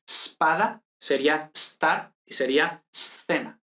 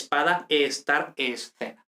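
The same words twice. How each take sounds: First: "spada", "star", "scena" begun straight on the s; slow, hold the s at the start of "spada", "star", "scena"; no initial E. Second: Said in the usual way. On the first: Shown as a demonstration. Teacher showing hypothetical Spanish, "spada", "star", "scena" with no e before the s. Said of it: "si no hubiera ocurrido esto". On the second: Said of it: "Pues no es así".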